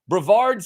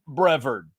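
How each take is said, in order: First: The name is said in a fancy, French-sounding way. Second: The name is said in a plain country way. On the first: "something fancier ... something you're going to serve me in France" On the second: "I always assume the country pronunciation"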